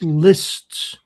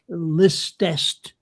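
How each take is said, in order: First: The word is said with one syllable. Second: The word is said with two syllables. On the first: The speaker calls it right. "that's lists or Heerdst" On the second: The speaker calls it wrong. "people tend to pronounce it as Heerdest, Listest"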